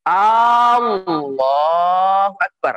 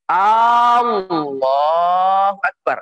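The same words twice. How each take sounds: First: The opening vowel of Allah is drawn out. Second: The same.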